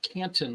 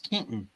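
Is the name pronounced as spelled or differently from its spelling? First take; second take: as spelled; differently. First: The name is pronounced just as it is spelled. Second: The name is pronounced differently from its spelling. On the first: The speaker calls it wrong. "It's not Canton like it's spelled" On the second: The speaker calls it right. "and you have to say it correctly"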